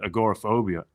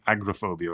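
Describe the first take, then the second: First: A full vowel is heard after 'ag'. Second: No vowel is heard after 'ag'. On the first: "I actually said agoraphobia" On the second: "We say agrophobia over here"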